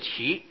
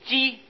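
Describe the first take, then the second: First: The word is pronounced qi. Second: The word is pronounced ji. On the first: It means the stalks left after harvesting beans. The speaker calls it right. "这里应当念作萁" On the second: It names a kind of grass. The speaker calls it wrong. "还有一个字念作鸡"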